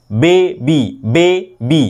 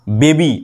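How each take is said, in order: First: baby split into বে, pause, বি; syllable break. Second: Said in the usual way. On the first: Shown as a demonstration. Teacher counts two syllables, baby broken after বে. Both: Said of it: "দুটো".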